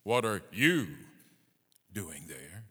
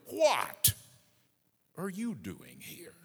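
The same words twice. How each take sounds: First: You punched loud, the rest dropping off; stress on you. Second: What hit high and loud, then a drop; stress on What. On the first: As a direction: hit you hard, pause, then finish lower. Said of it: "put the emphasis on the word you". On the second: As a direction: punch What, pause, let the rest fall away. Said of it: "Put the emphasis where you will". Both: Shown as a demonstration.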